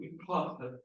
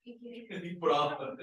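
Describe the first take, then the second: First: Said in the usual way. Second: "Em prova" stretched slowly, word by word, with a laugh; slow drawn-out repeat. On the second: Shown as a demonstration. Teacher stretching it out so the class hears it.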